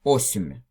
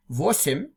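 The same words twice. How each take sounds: First: Осемь said with no v, opening straight on the o; old Russian осемь. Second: Восемь with a clear v at the start; modern восемь. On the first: Teacher showing students the old Russian осемь, no v. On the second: Teacher contrasting modern and old Russian, saying восемь with v. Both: Shown as a demonstration. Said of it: "they said осемь".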